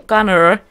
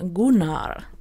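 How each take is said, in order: First: The name is said with an American pronunciation. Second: The name is said with a Swedish pronunciation. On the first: "I think that's the way that you guys in the US pronounce him" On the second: "It's also a Swedish name, and it's pronounced Gunnar"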